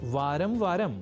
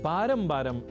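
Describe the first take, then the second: First: Each part begins with a v sound. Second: Each part begins with a b sound. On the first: "शब्द है वारंवार या वारम वारम" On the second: "जिसका बारम बारम इस रूप में हम प्रयोग कर लेते हैं"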